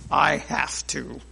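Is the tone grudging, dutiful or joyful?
grudging. It is said in a grudging tone.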